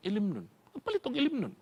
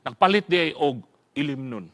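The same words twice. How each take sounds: First: Dropped to a soft conspiratorial murmur; hushed secret. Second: Said in the usual way. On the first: Retold or imitated. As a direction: say it softly like a secret. Secret about buying liquor. (hinay nga hunghong)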